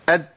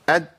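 No difference in how they are said.

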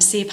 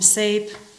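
First: The vowel is a single plain vowel. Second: The vowel glides as a diphthong. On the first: "nem szép" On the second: "a kettős magánhangzókat használja, hogy nem szép, hanem szép"

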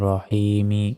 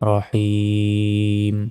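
First: The word ends with an extra vowel after m. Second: The word ends on a bare m sound. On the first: The recitation continues without stopping. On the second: The reciter stops at this word.

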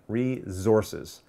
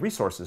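First: The middle consonant is a buzzing Z sound. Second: The middle consonant is a hissing S sound. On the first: The speaker calls it wrong. "like a Z in there instead of an S" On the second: The speaker calls it right. "so it's more of an S sound"

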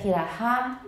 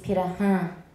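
First: The vowel in Han is plain, not nasalized. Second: The vowel in Han is nasalized. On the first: The speaker calls it wrong. "instead of Peter Han" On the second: The speaker calls it right. "that means nasalize this sound. So instead of Peter Han, it's Peter Han"

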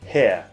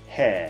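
First: It uses the older traditional British vowel. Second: It uses the newer current British vowel. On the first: "昔のイギリス英語だとHair だったんですけど" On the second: "最近はHair になってきてます"

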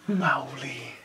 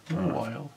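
First: The name ends in an 'ee' sound. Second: The name ends like the word 'while'. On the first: The speaker calls it wrong. "That's not what that says at all" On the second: The speaker calls it right. "It's more Isle"

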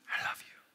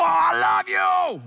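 First: It is whispered softly. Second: It is yelled loudly.

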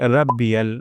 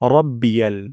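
First: The r sound is light and thin. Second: The r sound is heavy and thick. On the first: The speaker calls it wrong. "যেন এমনটি না হয় রাব্বিয়াল" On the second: The speaker calls it right. "র মোটা করে উচ্চারণ করতে হবে"

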